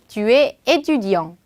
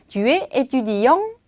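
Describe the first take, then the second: First: The voice does not rise at the end. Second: The voice rises at the end. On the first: It states that the listener is a student. "평서문을 하나 준비했어요" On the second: It asks whether the listener is a student. "요렇게 끝에 올려주면 너는 학생입니까?"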